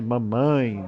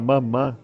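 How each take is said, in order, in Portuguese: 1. A palavra termina em ditongo nasal. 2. A palavra termina em vogal nasal simples. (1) "aí depois aí você vai corrigindo" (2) "as crianças falam mamã"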